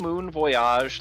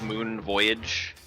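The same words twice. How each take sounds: First: Voyage is said the French way, like bon voyage. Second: Voyage is said the ordinary English way.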